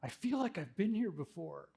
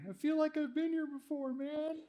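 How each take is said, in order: First: It is said in his normal voice. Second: It is said in a slurred drunk voice.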